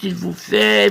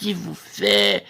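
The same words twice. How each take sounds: First: Said in the usual way. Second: Much lower and slow il vous fait; deep voice. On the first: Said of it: "c'est vous qui lui faites". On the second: Shown as a demonstration. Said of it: "vous lui faites".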